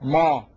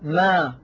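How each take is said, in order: First: The sound is heavy, with a raised back tongue. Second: The sound is light, with a lowered tongue. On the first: The speaker calls it wrong. "ولا تقول ما" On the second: The speaker calls it right. "والعرب تقول ما"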